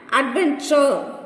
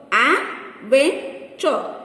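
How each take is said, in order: First: Said in the usual way. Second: "Adventure" slowly in three beats, Ad, ven, ture; slow, separated syllables in "Adventure". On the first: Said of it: "Divide each word". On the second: Shown as a demonstration. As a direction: pause after each syllable of "Adventure". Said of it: "Three syllables".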